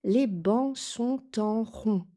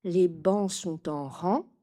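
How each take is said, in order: First: "en rond" with a round "on" nasal, a little slowly. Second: "en rang" with an open "an" nasal. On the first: Teacher giving learners the answer, slightly slow. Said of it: "Et la réponse". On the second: Teacher showing the wrong option to learners. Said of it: "Je n'ai pas dit". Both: Shown as a demonstration.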